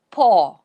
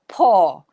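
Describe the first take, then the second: First: The vowel is a long 'or'. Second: The vowel is a long 'or'.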